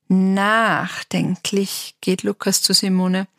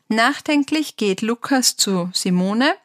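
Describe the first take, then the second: First: It is read in a thoughtful, expressive way. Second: It is read plainly, without special expression.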